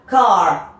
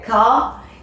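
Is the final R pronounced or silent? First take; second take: pronounced; silent. First: It is said with a Canadian accent, R pronounced. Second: It is said with a British accent, R silent.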